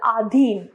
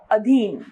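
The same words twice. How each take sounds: First: आधीन with a long opening aa; wrong pronunciation. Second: Said in the usual way. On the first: Shown as a demonstration. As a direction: stretch the first vowel of आधीन. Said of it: "अशुद्ध". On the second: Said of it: "इसका शुद्ध है".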